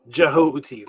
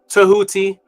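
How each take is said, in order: First: The name begins with a soft J sound. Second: The name begins with a T sound. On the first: "some people pronounce it Jehuti ... the soft J" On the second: "so it's Tahuti"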